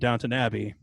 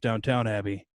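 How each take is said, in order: First: The first word ends with a short 'ton' sound. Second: The first word ends with a full 'town' sound. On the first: This is the name as actually pronounced. The speaker calls it right. "for about a week now for me. It's been Downton Abbey" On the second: This is how the name was long assumed to go. The speaker calls it wrong. "Before that, it was Downtown Abbey"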